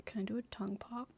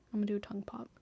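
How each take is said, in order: First: Quick whisper, asking the mic. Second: Whispered announcement. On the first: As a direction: hush it out fast, a playful question. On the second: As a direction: hush it, decided now. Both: Real, not acted.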